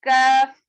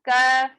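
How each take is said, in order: Both takes have the same delivery.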